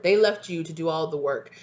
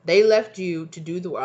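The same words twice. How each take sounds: First: Said in the usual way. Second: Put-on loud burst of stray accent, WORK losing its R; unplanned accent. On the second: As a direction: belt it in an odd accent, "work" as "wah". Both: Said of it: "I don't know where I got that from".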